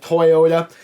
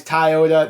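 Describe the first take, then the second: First: Toyota with an OY in the first syllable, "Toy-ota"; standard pronunciation. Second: Toyota said as "Tie-ota"; an A sound replacing the first O in "Toyota"; own accented pronunciation. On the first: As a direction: say "Toyota" starting like the word toy. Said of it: "you would say it like Toyota". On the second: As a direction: say "Toyota" starting like the word tie. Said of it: "that's my accent here". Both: Shown as a demonstration.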